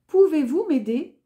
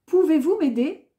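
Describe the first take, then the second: No difference in how they are said.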